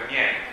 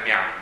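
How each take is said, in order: First: The vowel sounds like 'yen'. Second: The vowel sounds like 'yan'. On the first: The speaker calls it right. "quello è Mien" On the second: The speaker calls it wrong. "non è Mian"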